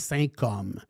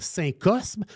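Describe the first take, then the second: First: The s before the m is silent. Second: The s before the m is pronounced. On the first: This is how French people actually say it. "la vraie manière de le dire" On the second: It follows the spelling. "comme il est écrit"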